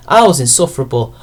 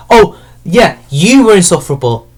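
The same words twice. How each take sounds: First: Said in the usual way. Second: "you" punched in a retort; stress on YOU. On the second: Real, not acted. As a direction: throw it back, leaning hard on "you". Throws the admission back at writer.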